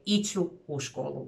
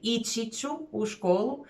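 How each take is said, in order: First: The verb ending is dropped and merged with ću. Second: The verb keeps its full ending before ću. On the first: "a lot of the natives would say" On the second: "instead of saying"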